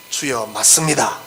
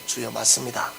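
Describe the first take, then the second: First: "맞습니다" drawn out slow and low; slow, weighty admission. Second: Said in the usual way. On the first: Shown as a demonstration. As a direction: let "주여, 맞습니다" land slowly, each word weighed. ("맞습니다"를 천천히 낮고 무게 있게) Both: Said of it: "이게 굉장히 중요한 말이에요".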